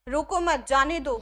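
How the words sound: There is a pause right after मत.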